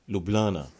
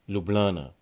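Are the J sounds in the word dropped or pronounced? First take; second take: dropped; dropped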